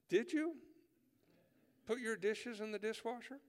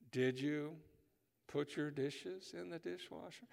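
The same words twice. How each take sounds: First: Pitched way up, pointed and insistent; repeated question, higher. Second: Stare them down and ask slowly; slow, staring question. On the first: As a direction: ask it again, much higher and pushier. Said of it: "they look at you and go". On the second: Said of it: "they pause and they stare you in the eye". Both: Acted.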